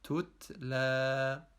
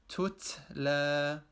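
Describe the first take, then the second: First: The second t has only slight air, still t. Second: The second t has too much air, nearly s. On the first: The speaker calls it right. "The correct pronunciation is tutla" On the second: The speaker calls it wrong. "a person could recite the following word with this mistake"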